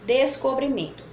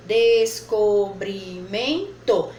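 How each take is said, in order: First: Said in the usual way. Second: "descobrimento" dragged out slowly, louder; slow sounding out. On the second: Shown as a demonstration. Teacher sounding out the word for pupils. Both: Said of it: "quatro possibilidades".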